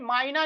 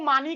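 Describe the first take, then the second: First: It is said with a 'y' glide after the first vowel. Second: It is said ending in an 'ee' vowel. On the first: "मायना नहीं होता है" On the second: "बाज लोग इसको मानी कह देते हैं"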